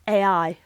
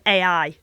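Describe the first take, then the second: First: Said in a slightly different English accent. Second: Said in the speaker's own English accent. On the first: "in the video it was" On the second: "I pronounce it"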